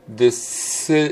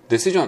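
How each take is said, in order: First: The middle s sound is held long. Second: The middle s sound is short and flat. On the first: The speaker calls it right. "英語の話し方で言うと" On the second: The speaker calls it wrong. "平たくてディ、シ、すぐにシっていう感じ"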